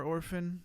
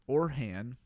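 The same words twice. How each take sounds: First: "Orphan" said with a clear f sound, or-fun; the name slips out as "Orphan", with an f in the middle; name misspoken. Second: "Orhan" said as or-han, with an h and no f; corrected name. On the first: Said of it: "why do I keep calling you Orphan?". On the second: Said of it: "I'm sorry". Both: Real, not acted.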